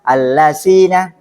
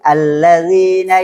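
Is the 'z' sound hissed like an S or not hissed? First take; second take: hissed; not hissed. First: The z sound is hissed like an S. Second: The z sound is voiced without any hiss. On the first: The speaker calls it wrong. "tidak boleh dibaca allazina ya" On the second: The speaker calls it right. "tapi allazina yazkurunallaha"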